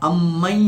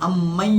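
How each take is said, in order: The two takes are said the same way.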